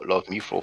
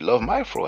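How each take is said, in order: First: The middle word sounds like 'me'. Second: The middle word sounds like 'my'. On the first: "I've been calling you love me fro for the longest" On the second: "I'm supposed to pronounce it love my fro, am I?"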